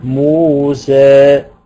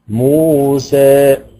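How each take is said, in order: The two takes are said the same way.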